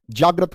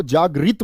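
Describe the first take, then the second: First: जागृत ending in 'rat', 'jaag-rat'; correct pronunciation. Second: जागृत ending in 'reet', 'jaag-reet'; wrong pronunciation. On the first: Teacher giving the right form, जागृत as 'jaagrat'. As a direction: say जागृत with short A before T. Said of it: "जागृत होता है". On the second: Teacher warning against the mistake, जागृत as 'jaagreet'. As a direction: say जागृत with an EE before T. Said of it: "जागृत मत कर देना". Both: Shown as a demonstration.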